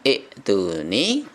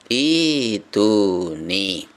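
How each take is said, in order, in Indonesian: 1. Hamzah dipotong pendek dengan hentian glotis. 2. Hamzah menjadi vokal panjang, tanpa hentian. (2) "tidak disentak tetapi menjadi mad"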